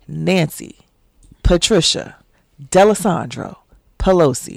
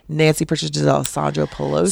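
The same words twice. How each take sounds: First: The name is said slowly. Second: The name is said quickly. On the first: The speaker calls it right. "Let me put some respect on her name" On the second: The speaker calls it wrong. "I feel like I said that too quickly"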